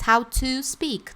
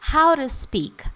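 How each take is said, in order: First: The word 'to' is said fully, like 'two'. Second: The word 'to' is a quick R-like tap. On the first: "Como se estivesse pronunciando o número dois" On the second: "meter um som de ira"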